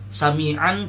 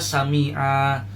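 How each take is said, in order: First: The word ends with an n sound. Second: The word ends without an n sound. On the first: The reading continues into the next word. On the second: The reader stops at this word.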